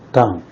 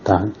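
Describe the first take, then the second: First: The pitch falls sharply from high. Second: The pitch rises from middle to high.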